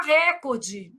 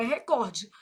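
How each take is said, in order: First: "recorde" stressed on the first syllable; pronúncia errada. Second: "recorde" stressed on the middle syllable; standard pronunciation. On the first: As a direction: say "recorde" as RÉ-cor-de. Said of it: "Mas o certo é recorde". ("recorde" com a tônica errada no RÉ) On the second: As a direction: say "recorde" as re-COR-de. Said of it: "o certo é recorde". ("recorde" com a tônica em COR) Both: Shown as a demonstration.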